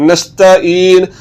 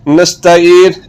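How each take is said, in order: The two takes are said the same way.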